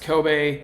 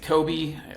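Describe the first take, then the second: First: It is said the way it is said in Japan. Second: It is said the common American way. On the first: This is how the city's name is really said. The speaker calls it right. "but it is pronounced Kobe" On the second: This is how people in the U.S. say it. The speaker calls it wrong. "everyone in the U S pronounces it Kobe"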